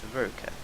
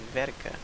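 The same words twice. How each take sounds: First: The name is said with an English pronunciation. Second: The name is said with a Portuguese pronunciation. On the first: The speaker calls it right. "but no, it's Verka" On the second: The speaker calls it wrong. "in Portuguese I would say Verka"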